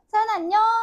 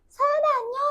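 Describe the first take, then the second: First: It is said in a low, normal voice. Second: It is said in a high-pitched voice.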